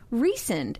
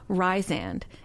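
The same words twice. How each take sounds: First: The first syllable does not sound like 'rye'. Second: The first syllable sounds like 'rye'. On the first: "they pronounce it" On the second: "Rye, like the bread"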